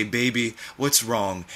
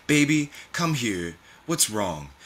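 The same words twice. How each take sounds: First: Lightly crooned, gentle question; a hint of a tender, crooning father; father's low croon. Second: Softly voiced grandmother calling a child over; grandmother's tender concern. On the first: Father leans into mother, gentle low croon. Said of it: "Your father's voice is a low croon". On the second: Grandmother comforts upset loved one, gentle concern. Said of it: "Your grandmother's voice saying". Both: A narrator's reading.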